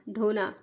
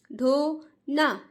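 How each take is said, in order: First: Said in the usual way. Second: "ढोना" stretched very slowly with the vowel sign; slow drawn-out word. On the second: Shown as a demonstration. Teacher shows parents how "ढोना" must be read. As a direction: draw out "ढोना" so children hear the ओ. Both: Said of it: "बोलना यही है".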